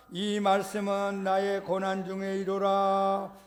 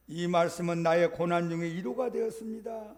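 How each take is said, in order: First: Slow sung-out reading of the verse, chanted "이루라". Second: Said in the usual way. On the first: Shown as a demonstration. Pastor reads Psalm 119 verse to congregation, slowly chanting.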